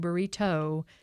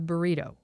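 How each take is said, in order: First: The stress falls on the final syllable. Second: The stress falls before the final syllable.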